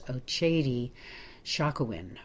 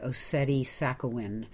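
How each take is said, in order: First: The name has ch and sh sounds. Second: The name is read out the way it looks. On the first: "it's pronounced by the folks there, I think, as" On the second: "if you were to look at it and just say it, it looks like"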